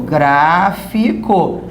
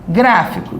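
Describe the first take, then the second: First: GRÁÁ-fi-co, slowly split into syllables; stressed syllable drawn out. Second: Said in the usual way. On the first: Shown as a demonstration. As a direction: stretch "gráfico" out, holding the GRÁ. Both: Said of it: "de novo".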